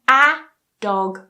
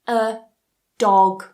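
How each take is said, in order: First: The word a is stressed with a full vowel. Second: The word a is weak and dog is stressed. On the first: The speaker calls it wrong. "notice I don't say I want a dog" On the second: The speaker calls it right. "but a dog"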